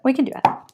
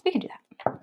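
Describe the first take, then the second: First: Said in the usual way. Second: Soft unvoiced whisper. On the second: Real, not acted. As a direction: whisper it back to yourself. Whispered repeat of same line.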